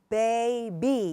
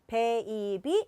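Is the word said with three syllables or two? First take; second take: two; three. First: The word is said as two smooth syllables. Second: The word is split into three separate syllables. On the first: The speaker calls it right. "삼음절이 아니라 baby 이렇게 되는 거예요" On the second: The speaker calls it wrong. "이건 삼음절이에요"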